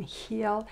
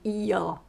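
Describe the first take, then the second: First: Heel with a sounded H; heel, clearly not eel; H pronounced. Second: Eel starting straight on the vowel; eel, clearly not heel. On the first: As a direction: breathe an H at the start of heel. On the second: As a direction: say eel with no breath before it. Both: Shown as a demonstration. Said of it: "it can make a big difference".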